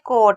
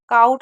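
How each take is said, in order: First: The vowel is a plain 'o' sound. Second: The vowel is an 'ow' glide sound. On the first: The speaker calls it right. "कोट है" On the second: The speaker calls it wrong. "काउट नहीं है"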